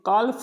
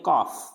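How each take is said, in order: First: The l is sounded. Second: The l is silent. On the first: The speaker calls it wrong. "काल्फ नहीं पढ़ेंगे" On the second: The speaker calls it right. "इसको पढ़ेंगे काफ"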